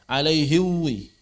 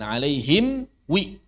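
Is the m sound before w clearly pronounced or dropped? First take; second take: dropped; pronounced. First: The m before w is dropped. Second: The m before w is clearly pronounced. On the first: The speaker calls it wrong. "Tidak dibaca" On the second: The speaker calls it right. "Begitu ya"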